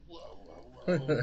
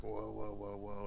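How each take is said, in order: First: A hushed whoa that bursts into a loud high cry; mock alarm, hammed up as he falls back; startled whoa. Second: Said in the usual way. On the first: Wrestler falling back from her pose, hammed-up startled cry.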